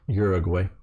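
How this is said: The name is said with an American English pronunciation. "the American Uruguay"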